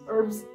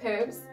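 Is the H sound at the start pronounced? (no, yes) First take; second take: no; yes. First: The word starts without an H sound. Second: The word starts with an H sound. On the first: "No H. We eat the H" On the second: "British says herbs"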